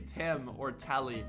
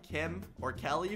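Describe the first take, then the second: First: The names begin with a T sound instead. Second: The names begin with a clear K sound. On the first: The speaker calls it wrong. "I would say Tim or Telly" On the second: The speaker calls it right. "anytime I said the letter K"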